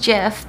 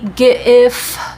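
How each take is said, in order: First: It begins with a soft j sound. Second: It begins with a hard g sound. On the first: The speaker calls it wrong. "thought it was Jif because it was peanut butter" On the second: The speaker calls it right. "hard G for graphics"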